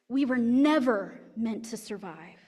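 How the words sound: The word never carries the main stress. Eventually everyone will die. "If we put the emphasis on never"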